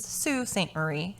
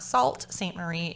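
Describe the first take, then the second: First: The first word does not sound like 'salt'. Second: The first word sounds like the word 'salt'. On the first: The speaker calls it right. "It is" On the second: The speaker calls it wrong. "It is not"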